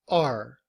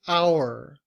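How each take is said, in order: First: The word is said in a reduced form. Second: The word is said in its full form. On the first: "We reduce it to our" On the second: "we don't say our"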